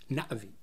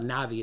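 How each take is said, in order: First: There is a sharp break after the first vowel. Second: The vowels run together with no break. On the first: The speaker calls it right. "it's Navi" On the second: The speaker calls it wrong. "It's not Navi"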